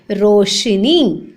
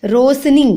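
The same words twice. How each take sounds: First: "रोशनी" slowly, as rosh-ni; low, drawn-out "रोशनी" with sh, not s; correct sh sound. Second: "रोशनी" with s instead of sh; plain hissed s inside "रोशनी"; wrong pronunciation. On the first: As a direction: stretch out "रोशनी" with a clear sh. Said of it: "शलगम वाली शो आती है इसमें". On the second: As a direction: say "रोशनी" as ros-ni. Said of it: "रोशनी नहीं होता". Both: Shown as a demonstration.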